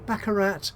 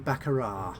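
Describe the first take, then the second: First: The final T is pronounced. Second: The final T is not pronounced.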